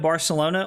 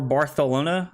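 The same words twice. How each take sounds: First: It is pronounced with an American accent. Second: It is pronounced with a local Spanish accent. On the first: "as an American like I would pronounce it" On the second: "that's how they pronounce the city name"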